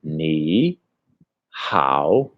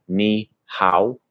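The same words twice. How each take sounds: First: NI HAO low, each syllable dipping then rising; correct-tone demo. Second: NI HAO with untoned, level English pitch; wrong-tone demo. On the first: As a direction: separate NI and HAO, swooping each from low upward. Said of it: "you must speak like this". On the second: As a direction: say NI HAO evenly, without the Chinese dips. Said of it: "instead of saying". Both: Shown as a demonstration.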